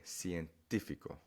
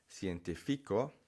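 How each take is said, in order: First: "científico" stressed on the second syllable, TÍ; Spanish stress. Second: "científico" wrongly stressed on FI, cienti-FI-co. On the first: Teacher showing how Spanish says scientific, stress on TÍ. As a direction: lean on TÍ in "científico", let "fico" drop. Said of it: "say it the way you would say it in Spanish". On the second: Teacher showing learners what to avoid, misplaced stress on FI. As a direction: push the stress late onto FI in "científico". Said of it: "So instead of saying". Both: Shown as a demonstration.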